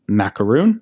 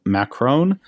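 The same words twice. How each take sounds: First: Macron said as "Macaroon"; jokey mispronunciation. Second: Said in the usual way. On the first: Shown as a demonstration. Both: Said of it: "sometimes pronounced Macaroon".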